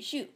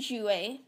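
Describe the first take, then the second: First: The final ending is silent. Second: The final ending is sounded aloud. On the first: The speaker calls it right. "they're actually silent" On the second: The speaker calls it wrong. "you don't say jouer"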